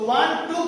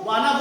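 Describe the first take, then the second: First: Both words are said fully and separately. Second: The two words blend into one short word. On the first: "वांट टू को वाना बोल सकते हो" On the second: "वांट टू को वाना बोल सकते हो"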